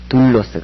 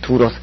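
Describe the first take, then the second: First: The middle L sound is doubled and held. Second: The middle L sound is single and light. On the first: The speaker calls it right. "둘로스 그렇게 읽습니다" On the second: The speaker calls it wrong. "두로스 그렇지 않고"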